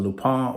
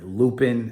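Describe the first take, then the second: First: The name is said with a French accent. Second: The name is said with an American accent.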